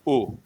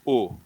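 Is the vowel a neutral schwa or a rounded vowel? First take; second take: rounded vowel; rounded vowel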